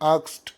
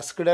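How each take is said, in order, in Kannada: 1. ಈ ಪದ k, s, t ಶಬ್ದದಲ್ಲಿ ಮುಗಿಯುತ್ತದೆ. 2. ಈ ಪದ s, k, d ಶಬ್ದದಲ್ಲಿ ಮುಗಿಯುತ್ತದೆ. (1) "ಕೆಲವರೆಲ್ಲ ಆಕ್ಸ್ಟ್ ಹೇಳ್ತಾರೆ" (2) "ಇದರ ಉಚ್ಚಾರ ಆಸ್ಕ್ಡ್ ಅಲ್ಲ"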